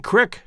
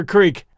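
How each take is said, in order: First: Crick for creek, short i as in brick; Midwest pronunciation. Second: Said in the usual way. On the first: Shown as a demonstration. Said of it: "left me saying crick for creek". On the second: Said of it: "crick for creek".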